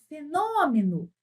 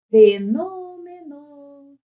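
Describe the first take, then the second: First: "fenômeno" chamado, com a tônica alongada; chamando a palavra. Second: Sung, "Fenômeno" cantado, com as sílabas bem esticadas; sung, cante "Fenômeno" devagar, segurando cada vogal; sung, palavra cantada. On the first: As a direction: chame "fenômeno" como quem chama alguém. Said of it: "você canta a palavra ou chama". ("fenômeno" em tom de chamado) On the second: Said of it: "Cantar ou chamar?". (sung, "Fenômeno" em tom de canto) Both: Shown as a demonstration.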